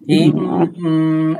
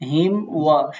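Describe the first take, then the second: First: The m is held with a nasal hum first. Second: The m runs quickly straight into the w. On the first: The speaker calls it wrong. "এরকম করে ওয়াও বলা যাবে না, এটা ভুল" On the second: The speaker calls it right. "দ্রুত পড়তে হবে... সাথে সাথে ওয়াও বলতে হবে"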